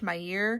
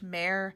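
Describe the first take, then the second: First: The name sounds like 'Meyer', with two syllables. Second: The name sounds like 'Mare', with one syllable. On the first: The speaker calls it wrong. "I incorrectly assumed that it was pronounced the same way" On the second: The speaker calls it right. "It's actually pronounced Mare"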